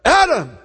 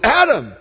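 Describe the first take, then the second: First: It is called with urgent force. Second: It is called with urgent force.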